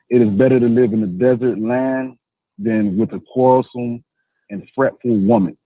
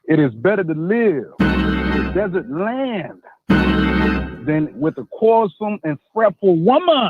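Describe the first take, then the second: First: It is read plainly, without much conviction. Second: It is read forcefully, with strong conviction.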